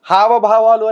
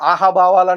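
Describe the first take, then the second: First: The word begins with an h sound. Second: The word begins with a vowel sound. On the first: The speaker calls it right. "హావభావాలు అనే పదం" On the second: The speaker calls it wrong. "పలకటం రాక ఆహాభావాలు అంటాడు ఒకడు"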